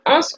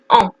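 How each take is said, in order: First: The final S sound is pronounced. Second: The final S sound is silent. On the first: The speaker calls it wrong. "on ne dit pas ans" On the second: The speaker calls it right. "on dit en. On ne prononce pas le S"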